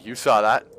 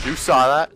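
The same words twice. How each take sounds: First: Said in the usual way. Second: Louder, higher, rising question; insistent boast. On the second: Real, not acted. Gamer to viewers after own feat, insistent excited boast. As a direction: push it up, demanding a witness.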